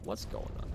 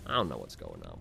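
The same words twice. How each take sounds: First: Whispered to himself, baffled. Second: Said in the usual way. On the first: Real, not acted. Puzzled by his own failed accent, he whispers to himself. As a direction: breathe the question out with no voice.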